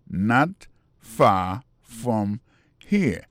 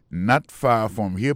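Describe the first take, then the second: First: Very slow, each word on its own. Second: Said in the usual way. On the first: Shown as a demonstration. Teacher repeats the new phrase for learners, word by word. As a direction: leave a clear gap after every word.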